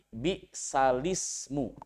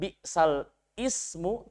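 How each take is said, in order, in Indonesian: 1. Huruf l membawa vokal i langsung ke ismu. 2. Vokal i memulai ismu secara terpisah setelah l. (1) "tetapi bi'salismu" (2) "membacanya bukan bi'sal ismu"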